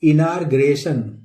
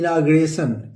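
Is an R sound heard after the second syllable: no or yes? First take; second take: yes; no. First: An R sound is heard after the second syllable. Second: No R sound is heard after the second syllable. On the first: The speaker calls it wrong. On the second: The speaker calls it right.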